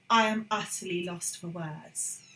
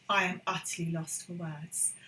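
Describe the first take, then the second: No difference in how they are said.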